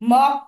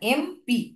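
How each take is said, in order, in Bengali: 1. এটা m দিয়ে শুরু একটি শব্দ হিসেবে বলা হয়। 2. এটা e দিয়ে শুরু অক্ষরের নাম হিসেবে বলা হয়। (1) "মপ এরম কিন্তু আমরা বলছি না" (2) "সাউন্ডস লাইক ইএম"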